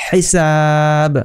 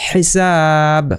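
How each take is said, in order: The two takes are said the same way.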